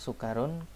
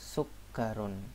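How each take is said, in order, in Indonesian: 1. Bunyi k di tengah itu pendek. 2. Bunyi k di tengah itu panjang. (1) "Jangan bilang sukarun" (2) "tapi sukkarun"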